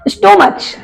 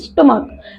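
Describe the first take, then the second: First: The word ends with a 'ch' sound. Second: The word ends with a 'k' sound. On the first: The speaker calls it wrong. "स्टोमच नहीं पढ़ते हैं" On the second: The speaker calls it right. "उसको हम पढ़ते हैं स्टमक"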